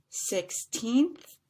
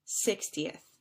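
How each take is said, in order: First: Put-on "sixteenth" rising high on a drawn-out "teenth"; long stressed TEENTH. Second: "sixtieth" stressed on SIX, short falling end. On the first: Teacher repeating the contrast, "sixteenth" with rising long teenth. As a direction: stretch the second syllable of "sixteenth" upward. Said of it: "stretched out just a little bit longer". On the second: Teacher repeating the contrast, "sixtieth" with short falling ending. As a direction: keep "ti-eth" short and dropping in "sixtieth". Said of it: "three syllables". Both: Shown as a demonstration.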